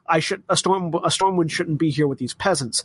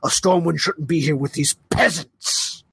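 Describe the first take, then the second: First: It is said in a plain, neutral tone. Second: It is said with venom and utter disdain.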